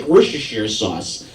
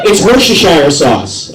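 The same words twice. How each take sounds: First: "Worcestershire" run together, ending in "sheer"; casual pronunciation. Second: "Worcestershire" firmly, ending in "shire" like "fire"; insistent pronunciation demo. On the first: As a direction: say "Worcestershire" as "wur-shuh-sheer". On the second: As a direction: say "Worcestershire" as "wur-shuh-shire". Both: Shown as a demonstration. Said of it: "That's how you pronounce it".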